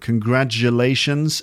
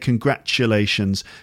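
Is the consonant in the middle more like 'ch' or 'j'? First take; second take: j; ch. First: The middle consonant is a voiced j sound. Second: The middle consonant is a voiceless ch sound. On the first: This is the American pronunciation. "So it's more of a j sound" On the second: This is the British pronunciation. "And I say congratulations. Ch"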